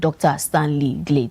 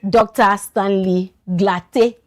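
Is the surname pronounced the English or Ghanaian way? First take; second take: English; Ghanaian. First: The surname is said the English way. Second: The surname is said the Ghanaian way. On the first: "I mentioned it's like an English game" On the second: "let me now pronounce it like a Ghanaian"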